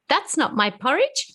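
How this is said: It is said in a high Baby Bear voice.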